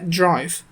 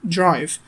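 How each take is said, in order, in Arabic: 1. صوت خفيف يشبه الجيم يربط بين الدال والراء. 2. صوت خفيف يشبه الجيم يربط بين الدال والراء.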